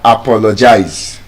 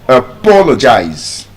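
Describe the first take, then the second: First: The stress is not on the second syllable. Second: The stress is on the second syllable. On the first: The speaker calls it wrong. "you don't say" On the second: The speaker calls it right. "The stress is on the second syllable"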